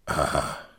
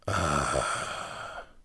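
First: It is said short and quick. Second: It is a long, slow, wheezy sound.

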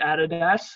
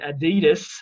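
First: The brand name is said the Australian way. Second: The brand name is said the American way. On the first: "we pronounce it Adidas" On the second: "The Americans pronounce it Adidas"

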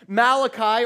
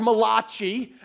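First: The name is said in a plain English way. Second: The name is said in an Italian-style way.

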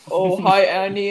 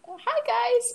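First: It is said in a deep voice. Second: It is said in a high voice.

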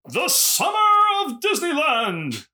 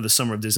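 First: The phrase is said very loudly and dramatically. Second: The phrase is said at a normal, calm volume. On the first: "it's bad and loud when both of our mics pick it up at full volume" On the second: "I won't say it like that the whole show"

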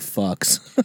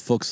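First: The vowel rhymes with the word bucks. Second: The vowel rhymes with the word books. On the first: This pronunciation sounds like a swear word. "just so he wouldn't say fucks" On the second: This is the polite way the name is pronounced. "it's Fuchs like books"

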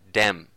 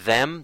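First: The word begins with a d sound. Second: The word begins with a th sound. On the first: The speaker calls it wrong. "they would substitute that for a D sound and say like dem" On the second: The speaker calls it right. "instead of saying the TH sound, like them"

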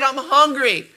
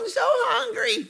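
First: It is said as a sincere complaint. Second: It is said in a mocking imitation.

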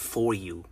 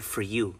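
First: The word 'for' is said fully as 'for'. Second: The word 'for' is reduced to 'fur'. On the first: The speaker calls it wrong. "not for you" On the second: The speaker calls it right. "Notice how I said for you"

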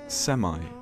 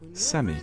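First: It is said with an American pronunciation. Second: It is said with a British pronunciation. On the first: "Semi is the American pronunciation" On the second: "in England we say semi"

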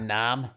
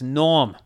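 First: The vowel is a flat 'a' sound. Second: The vowel is 'aw' and the r is dropped. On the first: The speaker calls it wrong. "It's not Nam. so they put an A" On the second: The speaker calls it right. "It's Norm. All you do is take the R out"

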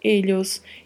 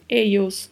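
First: The double L sounds like a palatal ly. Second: The double L sounds like English y. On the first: "duplo L com som de LH" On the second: "duplo L com som de I"

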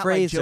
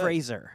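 First: The middle consonant is a 'zh' sound. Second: The middle consonant is a hard 's' sound. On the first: The speaker calls it wrong. "Not Fraser" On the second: The speaker calls it right. "there's no zh to it. It's a hard S"

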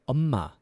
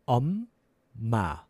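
First: It is said fast. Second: It is said slowly.

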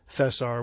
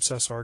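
First: The first consonant is a lisped th sound. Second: The first consonant is a plain s sound. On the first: This is the Spain Spanish way of saying it. "we weren't going to call him Cesar" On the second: This is how the man himself says his name. "that was his name for himself"

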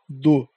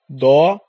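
First: The monosyllable is said unstressed, with weak vowel. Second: The monosyllable is said stressed, with full vowel. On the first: "o dô não vai receber acento" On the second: "O tônico, o dó vai receber acento"

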